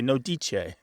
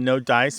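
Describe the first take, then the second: First: Dice is pronounced in a playfully altered way. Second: Dice is pronounced the ordinary English way. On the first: "we say no dice" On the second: "instead of saying no dice"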